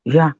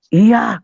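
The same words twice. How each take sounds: First: Short, unsweet agreement; imitated grudging yes. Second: High, loud exasperated yes; imitated louder yes. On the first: Father gives in to child's plea, grudging short yes. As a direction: give in curtly, acted as the father. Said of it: "Iyanya yang manis dong". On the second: Father asked for a sweeter yes, answers louder instead. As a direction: belt out the yes, acted as the father. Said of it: "Makin kenceng malahan".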